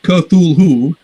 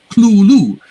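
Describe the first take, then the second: First: The word begins with a k-th sound. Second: The word begins with a cl sound. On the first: "It's not Cthulhu" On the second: "he spells it out as C L O O L O O"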